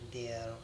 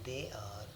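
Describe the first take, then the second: First: It is said as one contracted syllable. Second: It is said as two separate full words.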